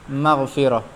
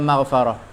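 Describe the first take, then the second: First: The vowel after the f is i. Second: The vowel after the f is a. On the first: The speaker calls it right. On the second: The speaker calls it wrong. "tak panggil maghfarah"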